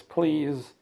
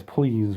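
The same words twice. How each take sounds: First: High, mock-pleading please; lightly hammed-up begging whine; whiny please. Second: Said in the usual way. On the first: Ferengi begging Picard to buy weapons, mock whine. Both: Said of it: "or whines a lot".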